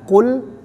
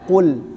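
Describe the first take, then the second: Both takes have the same delivery.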